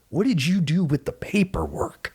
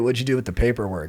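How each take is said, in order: First: It is said big, with lots of energy. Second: It is said flat, with little energy. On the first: The speaker calls it right. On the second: The speaker calls it wrong.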